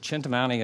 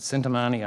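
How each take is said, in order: First: The word begins with a ch sound. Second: The word begins with an s sound. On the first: It sounds Italian. "I pronounce it Chintamani" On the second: Some other people say it this way. "some people pronounce it Sintamani"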